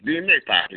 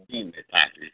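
First: "Dime, papi" pitched higher and louder; coaxing repeat. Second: Said in the usual way. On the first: Acted. Young woman pressing the poet, higher and louder. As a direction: push "Dime, papi" up and out the second time. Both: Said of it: "whispered to me something like".

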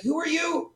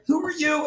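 First: Mimicking a dismissive question. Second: Re-doing the dismissive question. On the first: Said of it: "He's like". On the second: Retold or imitated. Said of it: "sorry, I forgot".

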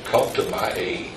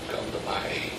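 First: Pleading softly, voice sinking low; quiet plea. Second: Plea whispered on breath alone. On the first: Reading Hezekiah's prayer, softer and lower. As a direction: hush the plea for help. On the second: Echoing Hezekiah's cry for help, whispered. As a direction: breathe the prayer desperately. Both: Acted.

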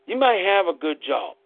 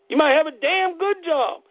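First: Said in the usual way. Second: "damn good" punched much higher; emphatic damn good. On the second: Real, not acted. Telling the audience about their jobs, stressing "damn good". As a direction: hit "damn good" hard and high.

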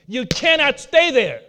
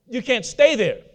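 First: "cannot" spelled out in full, slower; stress on cannot. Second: Said in the usual way. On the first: Shown as a demonstration. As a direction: lean into "cannot", each syllable separate.

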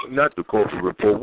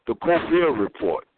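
First: "Corbett" said KOR-bit, hard t at the end; wrong name. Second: "Colbert" said kohl-BAIR, silent t; corrected name. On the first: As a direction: stress the first syllable of "Corbett", pronounce the t. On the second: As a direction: stress the second syllable of "Colbert", no t. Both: Shown as a demonstration.

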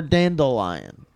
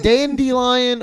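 First: "dandelion" with an L in the middle, dandle-lion; dandle-lion pronunciation. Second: "dandelion" with an ee in the middle, dandy-lion; dandy-lion pronunciation. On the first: Asking co-hosts which is right, "dandelion" said dandle-lion. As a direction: say "dandelion" as DAN-duh-lion. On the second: Asking co-hosts which is right, "dandelion" said dandy-lion. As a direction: say "dandelion" as DAN-dee-lion. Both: Shown as a demonstration. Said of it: "Is it dandelion or dandelion?".

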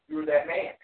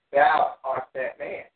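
First: Said in the usual way. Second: Slow, loud verse reading, leaning on THOU; scripture proclamation. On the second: Acted. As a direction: proclaim it slowly, THOU drawn out and strong. Reads Nathan's accusation from scripture.

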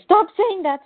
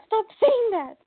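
First: Loud, high mock yell of panic; ballistic outburst. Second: Even higher repeated mock yell; ballistic outburst. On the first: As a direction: yell it higher, like losing control. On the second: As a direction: push the repeat up into a near squeal. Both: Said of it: "And they go ballistic".

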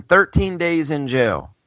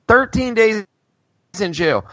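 First: Said in the usual way. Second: "Thirteen days in jail" with Thirteen stressed high; stressed repeat. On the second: Shown as a demonstration. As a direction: punch Thirteen in outrage, higher pitch.

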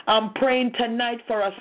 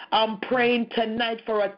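No difference in how they are said.

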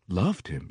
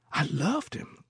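First: Said in the usual way. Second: Put-on high, mournful old woman's voice; old singer of spirituals. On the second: A narrator's reading. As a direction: lift it high like a moan. Old woman confesses love.

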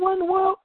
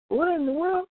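First: Much higher, stunned "What in the world?"; stunned disbelief. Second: High, baffled "What in the world?"; baffled exclaim. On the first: Radio host acting his shock at a song on gospel radio, high stunned. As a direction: squeal it in utter disbelief. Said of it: "You're like". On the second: Radio host mocking his own shock at a commercial, high baffled. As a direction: throw it up high in disbelief. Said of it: "you're like". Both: Retold or imitated.

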